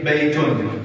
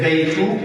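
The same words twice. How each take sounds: First: "baytun" with an n sound added after the final u; tanween ending. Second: "baytu" ending on a plain u, without the n; no tanween ending. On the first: Teacher showing the doubled haraka, "baytun" ending in n. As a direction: close "baytun" on a clear -un. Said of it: "it's like we're adding a noon". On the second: Teacher showing the form without tanween, "baytu" ending in bare u. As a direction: say "baytu" with a single, undoubled final vowel. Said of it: "Instead of saying baytu". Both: Shown as a demonstration.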